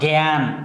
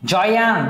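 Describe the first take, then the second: First: The word begins with a 'g' sound. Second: The word begins with a 'j' sound. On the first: The speaker calls it right. "গ গ দিয়ে বলি।" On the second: The speaker calls it wrong. "এরকম করে বলি না।"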